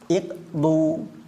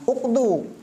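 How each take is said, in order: First: The word begins with an i vowel. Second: The word begins with a u vowel. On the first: The speaker calls it right. "tetapi iqdu" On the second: The speaker calls it wrong. "bukan uqdu"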